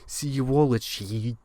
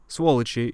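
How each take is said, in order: First: It is said with an English-speaker pronunciation. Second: It is said with a native Russian pronunciation. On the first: The speaker calls it wrong. "An English speaker ... might see a transcription of it and say" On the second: The speaker calls it right. "is the way you say it"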